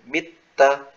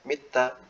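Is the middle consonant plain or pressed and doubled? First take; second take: pressed; plain. First: The middle consonant is pressed and doubled. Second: The middle consonant is short without pressure. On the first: The speaker calls it right. "Jadi ada tekanannya" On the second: The speaker calls it wrong. "Jadi tidak hanya sekedar mita"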